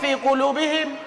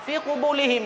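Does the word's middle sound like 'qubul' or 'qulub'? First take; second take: qulub; qubul. First: The l comes before the b in the word. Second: The b comes before the l in the word. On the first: The speaker calls it right. "padahal fi qulubihim" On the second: The speaker calls it wrong. "fi qubulihim dibacanya"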